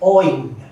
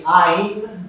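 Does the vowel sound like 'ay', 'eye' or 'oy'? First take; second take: oy; eye. First: The vowel sounds like 'oy'. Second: The vowel sounds like 'eye'. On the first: This is how Bengalis pronounce it. "Bengalis will say Oin" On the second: This is how some regions pronounce it. "some parts of India they'll say Ain / Айн"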